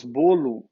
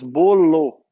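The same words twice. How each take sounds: First: Bolo as "BOH-loo", natural ending; final O as U. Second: Bolo as "BOH-LOH", both O's full, loud; spelling pronunciation. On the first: Teacher showing normal speech, bolo ending in "oo". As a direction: end bolo on a light "oo". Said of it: "com U no final". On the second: Teacher showing what we don't say, bolo with final "oh". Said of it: "Nós não falamos bolo". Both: Shown as a demonstration.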